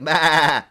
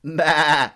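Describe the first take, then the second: No difference in how they are said.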